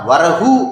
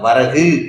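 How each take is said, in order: First: The final u is full, with rounded lips. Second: The final u is short, only half length. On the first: The speaker calls it wrong. "வரகு அப்படின்னு சொல்ல மாட்டாங்க" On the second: The speaker calls it right. "வரகு கு அப்படிம்பாங்க"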